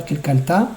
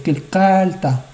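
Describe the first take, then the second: First: "Kilkalta" quick, rising onto "ta"; accent the last syllable of "Kilkalta"; wrong final stress. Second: "Kilkalta" slowed on a long "kal"; penultimate stress. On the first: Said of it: "C'est pas Kilkalta". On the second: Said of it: "on ralentira sur le deuxième Kouf". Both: Shown as a demonstration.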